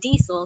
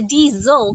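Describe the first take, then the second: First: The middle consonant is a hissing S sound. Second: The middle consonant is a buzzing Z sound. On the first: "I'll say it with an S" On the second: "he says a diesel, kind of with a Z"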